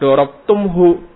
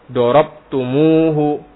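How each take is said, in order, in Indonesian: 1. Tidak ada vokal di antara 'tum' dan 'hu'. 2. Ada vokal 'u' tambahan di antara 'tum' dan 'hu'. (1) "nah ini bukan dibaca dorobtumhu" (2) "Tapi ditambahin waw di tengah-tengahnya"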